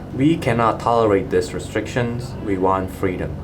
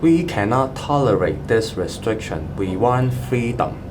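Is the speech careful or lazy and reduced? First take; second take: lazy; careful. First: Unstressed vowels are reduced in a relaxed delivery. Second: Every syllable is pronounced carefully and fully.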